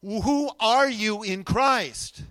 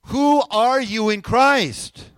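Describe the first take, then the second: First: Slow, deliberate call for an answer; prompting the congregation. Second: Slow, very loud rallying question; rousing call. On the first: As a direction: draw out each word of the question. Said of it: "would be a good time to answer". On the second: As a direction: belt out each word to get the room answering. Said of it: "let's try it again". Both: Real, not acted.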